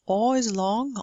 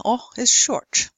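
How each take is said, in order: First: "o" as a drawn-out aw; long o. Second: "o" brief, as in British "pot"; short o. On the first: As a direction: hold "o" long, like caught. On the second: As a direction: cut "o" short and open. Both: Shown as a demonstration.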